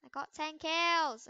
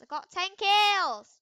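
First: Said in the usual way. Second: I got ten kills, belted out higher and slower; louder, higher, slow boast. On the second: Real, not acted. Gamer bragging to viewers, loud slow boast. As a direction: shout the brag out slowly.

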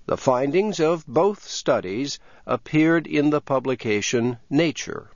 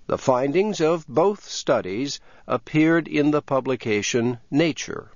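The two takes are said the same way.

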